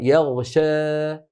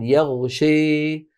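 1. الصائت الأخير بين a وeh. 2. الصائت الأخير eh مائلة بشدة. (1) "بين الألف والإمالة الكبرى" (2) "لابد أن تقول يغشي شي هكذا"

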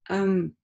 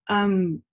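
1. Звук m закрывается и затухает через нос. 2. Звук m закрывается и затухает через нос.

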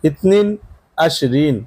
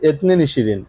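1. 'বিশ' শব্দটি প্রমিত রূপে বলা হয়, 'a' দিয়ে শুরু। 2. 'বিশ' শব্দটি কথ্য রূপে বলা হয়, 'i' দিয়ে শুরু।

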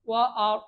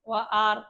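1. r ধ্বনিটি ভারী ও মোটা। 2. r ধ্বনিটি হালকা ও পাতলা। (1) "র হবে মোটা।" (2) "আমরা অনেকে বলি ওয়া আর, ওয়া আর বললে ভুল হবে।"

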